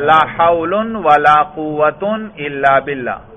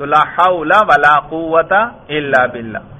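First: Both nouns end in 'un' with nunation. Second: Both nouns end in a short 'a' vowel. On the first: "یہ ہے دونوں پر رفع" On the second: "مفتوح کہا ہے، یعنی فتحہ دونوں پر"

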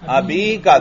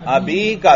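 First: The vowel after the b is long. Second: The vowel after the b is long.

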